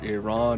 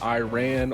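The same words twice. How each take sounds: First: It is said in a careful, native-like way. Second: It is said in a casual, anglicized way. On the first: The speaker calls it right. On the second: The speaker calls it wrong.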